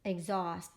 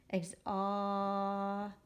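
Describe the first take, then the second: First: Said in the usual way. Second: "Exhaust" with a long held "aw"; slow phonics segmenting; sounding out. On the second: Shown as a demonstration. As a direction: stretch the middle of "Exhaust", final sounds separate. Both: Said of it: "write by the syllable".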